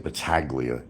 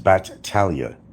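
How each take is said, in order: First: The name is said with a G sound. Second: The name is said with no G sound. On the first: The speaker calls it wrong. "you don't say Battaglia" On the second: The speaker calls it right. "the G is actually silent"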